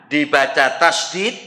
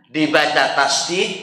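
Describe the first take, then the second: The two takes are said the same way.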